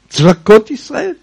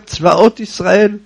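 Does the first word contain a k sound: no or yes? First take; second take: yes; no. First: The first word has a k sound in it. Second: The first word has no k sound in it. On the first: The speaker calls it wrong. "ומאיפה המצאת את הקוף הזה?" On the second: The speaker calls it right. "כמו שאני אומר"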